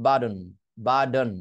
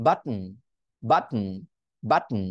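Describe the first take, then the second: First: "বাটন" said as BAA-don; "বাটন" with tapped d and clear vowel after; flap T. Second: "বাটন" as bat, catch, hummed n; "বাটন" broken by a stopped breath before n; glottal stop T. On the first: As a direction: soften the T of "বাটন" to a quick d. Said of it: "ফ্ল্যাপটি use করে কি বলতে পারবেন". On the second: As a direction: swallow the T in "বাটন", no vowel after it. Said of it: "গ্লটাল স্টপটি করে কি বলতে পারবেন". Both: Shown as a demonstration.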